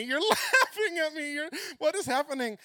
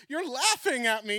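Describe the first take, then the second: First: High, loud, half laughing, half crying; tearful giggle, voice cracking. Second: High, loud, indignant; wounded cry of a caught child; hurt accusation. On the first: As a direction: break into laughter through the hurt. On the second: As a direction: call him out for laughing at you. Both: Retold or imitated. Upset at Lord laughing.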